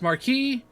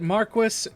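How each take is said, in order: First: The word is said in its usual modern form. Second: The word is said in an older form. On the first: "I know it's pronounced Marquis" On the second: "The game pronounces it Marquis"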